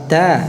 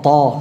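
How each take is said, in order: First: The t sound is thin and light. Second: The t sound is thick and heavy. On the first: The speaker calls it right. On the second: The speaker calls it wrong. "bukan to"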